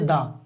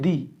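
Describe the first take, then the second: First: The vowel is a short 'uh' sound. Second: The vowel is a long 'ee' sound. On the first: The next word starts with a consonant. "सी है consonant इसीलिए पढ़ेंगे दा" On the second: The next word starts with a vowel. "वावेल पे होगा तो पढ़ेंगे दी"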